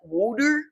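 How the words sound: The word has a heavily exaggerated regional accent. Someone is mocking how the word is said. The speaker calls it wrong. "she'd say it like that"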